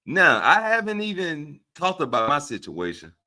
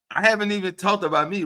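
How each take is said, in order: First: Said in the usual way. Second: Haven't hit higher, quicker, emphatic; fast insistent haven't; stress on haven't. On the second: Shown as a demonstration. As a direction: lean hard on haven't, rising.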